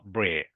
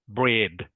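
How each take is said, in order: First: The final d sound is dropped. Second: The final d sound is clearly heard. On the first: The speaker calls it wrong. "not bread" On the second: The speaker calls it right. "I have to hear like"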